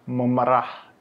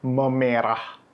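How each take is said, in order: First: Memerah with neutral 'uh', 'muh-muh-RAH'; schwa in memerah. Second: Memerah with a long 'eh', 'muh-MEH-rah'; clear e in memerah. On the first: Teacher's first homograph example, memerah with schwa. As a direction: keep both e's in memerah as schwa. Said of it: "Bacanya beda kan". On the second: Teacher contrasting the homograph, memerah with clear e. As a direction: open up the middle e of memerah. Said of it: "bunyinya beda". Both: Shown as a demonstration.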